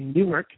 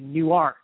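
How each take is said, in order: First: It is said the New Jersey way. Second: It is said the Delaware way. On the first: This is the name of the New Jersey city. "we say Newark" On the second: This is the name of the Delaware town. "you folks in Delaware say Newark"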